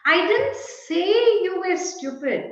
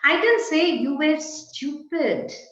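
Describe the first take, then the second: First: The word say carries the main stress. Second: The word stupid carries the main stress. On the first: It was written, not spoken. "Perhaps I wrote you were stupid" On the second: Something different was said about the person. "I only said you were good"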